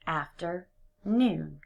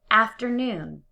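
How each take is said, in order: First: Slow, "afternoon" in separate parts; split slowly. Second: Said in the usual way. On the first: Shown as a demonstration. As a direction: drag "afternoon" apart. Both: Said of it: "break it apart into two separate words".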